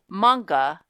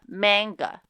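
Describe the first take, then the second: First: It is said with a Japanese-style pronunciation. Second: It is said with an English-style pronunciation. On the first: "Also use manga" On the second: "not manga"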